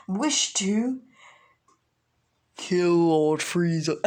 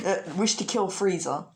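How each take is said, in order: First: Lightly voiced villain, slow and drawn out; villain declaration. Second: Said in the usual way. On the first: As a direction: put slow menace on the last words. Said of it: "And Raditz is like".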